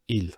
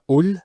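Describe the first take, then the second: First: The article is said with an i vowel. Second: The article is said with a u vowel. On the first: "it's never il" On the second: "It's never ul"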